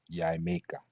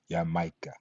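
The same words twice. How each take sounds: First: Jamaica said yai-MAY-ka with a Y sound; Latin J as Y. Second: Jamaica said ya-MAI-ka with a Y sound; Latin J as Y. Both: Shown as a demonstration. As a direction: Jamaica starting with Y. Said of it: "pronounced like Y".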